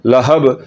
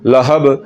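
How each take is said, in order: First: The final b is released with a jerky bounce. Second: The same.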